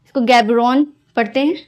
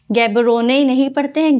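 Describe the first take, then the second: First: गैब्रोन said with a silent final e, no ending vowel; correct pronunciation. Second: गैब्रोने said with a final e sounded, as the wrong way; wrong pronunciation. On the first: Teacher showing students the right way to say गैब्रोन. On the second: Teacher showing students the mistaken pronunciation गैब्रोने. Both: Shown as a demonstration.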